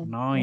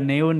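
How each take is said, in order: First: The vowel is said as one gliding 'oi' sound. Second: The vowel is said as separate 'eh' and 'oo'. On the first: The speaker calls it right. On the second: The speaker calls it wrong.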